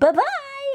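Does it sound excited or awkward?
excited. It sounds excited, silly and flippant.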